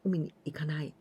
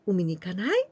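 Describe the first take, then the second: First: The pitch falls at the end. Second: The pitch rises at the end. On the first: It states that the speaker does not go to the beach. "going down" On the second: It is a suggestion to go to the beach together. "the intonation, it's so important here"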